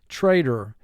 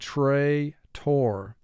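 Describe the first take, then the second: First: The second syllable is reduced and weak. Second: The second syllable is pronounced fully and clearly. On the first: It is said this way in everyday speech. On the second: It is said this way to help with spelling.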